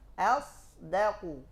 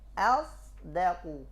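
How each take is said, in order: The two takes are said the same way.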